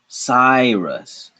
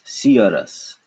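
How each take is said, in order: First: The y is said like 'eye'. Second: The y is said like 'ya'. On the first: This is the normal English pronunciation. "the Y is actually pronounced like I" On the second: This is how Hindi spelling rules would read it. "if we had to pronounce these using Hindi rules"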